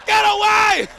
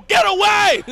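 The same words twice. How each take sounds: First: Higher urgent shout; mock frantic cheer. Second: High urgent cheer; mock rooting yell. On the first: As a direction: scream encouragement at the screen. Rooting again, louder. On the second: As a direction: yell him away from danger. Rooting for fleeing driver.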